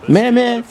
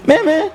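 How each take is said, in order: First: High, loud call; high, loud call of a name. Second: Very high second call of a name; higher repeated call. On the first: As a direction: call out to a friend. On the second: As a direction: call the name again, more urgently. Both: Retold or imitated. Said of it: "the gang is like".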